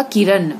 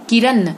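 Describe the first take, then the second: First: Said in the usual way. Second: किरण with dental "n"; wrong nasal. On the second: Shown as a demonstration. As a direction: end किरण on a plain "n", "kiran". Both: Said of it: "किरण नहीं होगा".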